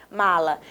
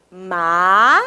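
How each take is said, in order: First: Said in the usual way. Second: "Ma-la" stretched into two separate beats, long pause between; syllable by syllable. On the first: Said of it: "vamos pronunciar a palavra mala". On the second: Shown as a demonstration. Teacher shows pupils how the mouth opens, syllable by syllable. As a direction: draw out each syllable of "Ma-la". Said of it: "falar a palavra pausadamente".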